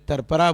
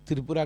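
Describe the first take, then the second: First: The name is said with 'tar' and a slurred middle. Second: The name is said with a clear 'tri' cluster. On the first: The speaker calls it wrong. "Delhi में मुंबई में तरपरा बोलते थे" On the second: The speaker calls it right. "त्रिपुरा का pronunciation नहीं कर सकते थे"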